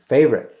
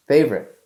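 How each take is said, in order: First: Favorite said louder with falling tune; stress on Favorite. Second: Favorite repeated, loud and falling; stress on Favorite again. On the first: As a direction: punch the word Favorite. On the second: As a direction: hammer Favorite once more. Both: Shown as a demonstration. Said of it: "What was that?".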